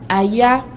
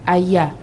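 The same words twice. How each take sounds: First: The pitch rises on the word. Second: The pitch falls on the word. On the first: "où le ton monte" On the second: "où le ton a baissé"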